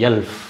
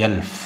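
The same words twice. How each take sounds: No difference in how they are said.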